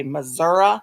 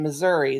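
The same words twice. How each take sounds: First: "Missouri" ending in an uh sound; disliked local pronunciation. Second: "Missouri" ending in an ee sound; standard pronunciation. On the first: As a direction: say "Missouri" as muh-ZUR-uh. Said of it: "they say Missouri". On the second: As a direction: say "Missouri" as muh-ZUR-ee. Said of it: "instead of saying Missouri". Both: Shown as a demonstration.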